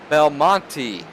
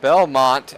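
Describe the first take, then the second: First: The name ends with an added vowel. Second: The name ends on a t sound. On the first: The speaker calls it right. "is actually pronounced Belmonte" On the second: The speaker calls it wrong. "as we were calling it"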